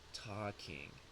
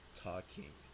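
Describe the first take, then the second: Both takes have the same delivery.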